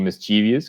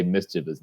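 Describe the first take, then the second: First: "mischievous" as mis-CHEE-vee-us, four syllables; long-E pronunciation. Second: "mischievous" as MIS-chuh-vus, three syllables; corrected pronunciation. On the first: Owning up to co-host about being corrected, "mischievous" said mis-CHEE-vee-us. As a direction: say "mischievous" with an extra ee before -us. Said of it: "that's how I thought it was pronounced". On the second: Giving co-host the correction, "mischievous" said MIS-chuh-vus. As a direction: stress the first syllable of "mischievous", no ee before -us. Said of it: "I've been corrected to say".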